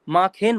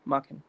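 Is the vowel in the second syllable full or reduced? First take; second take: full; reduced. First: The second syllable has a full, clear e vowel. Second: The second syllable has a light, reduced vowel. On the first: The speaker calls it wrong. "माखेन मत पढ़ना" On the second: The speaker calls it right. "हल्का सा हल्का सा साउंड ले लेना इसका"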